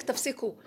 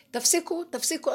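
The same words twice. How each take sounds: First: Said in the usual way. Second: Raised repeated cry, higher and louder; a retold divine shout; shouting stop. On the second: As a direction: voice God yelling at people to quit. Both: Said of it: "השם צועק".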